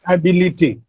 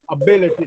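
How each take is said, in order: First: The stress is not on the second syllable. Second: The stress is on the second syllable. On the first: The speaker calls it wrong. "not ability" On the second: The speaker calls it right. "the second syllable is stressed"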